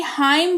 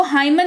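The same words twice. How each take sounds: First: हाइम with a silent N; correct pronunciation. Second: हाइमन with the final N sounded; wrong pronunciation. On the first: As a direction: say हाइम, ending on M. (सही उच्चारण, हाइम में न मौन) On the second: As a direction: say हाइमन, adding N after M. (गलत उच्चारण, हाइमन में न बोलकर) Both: Shown as a demonstration. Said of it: "हाइमन नहीं हाइम पढ़ेंगे".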